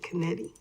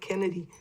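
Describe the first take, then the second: First: The stress is on the second syllable. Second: The stress is on the first syllable. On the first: This is how the family originally said the name. The speaker calls it right. "they pronounced it Kennedy" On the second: This is how most people say the name. The speaker calls it wrong. "not Kennedy"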